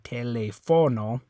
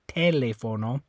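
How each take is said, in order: First: The stress is on the third syllable. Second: The stress is on the first syllable. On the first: "If you're stressing that O" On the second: "If you if you were stressing this one"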